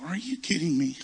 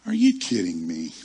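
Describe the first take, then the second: First: Higher-pitched, mock-offended disbelief; incredulous disbelief. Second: Low, loud mock disbelief; indignant disbelief. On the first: Passed-over preacher thinking to himself, incredulous in a higher voice. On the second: Passed-over preacher reacting to the snub, indignant disbelief in a low voice. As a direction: drop low and punch it, mock-offended.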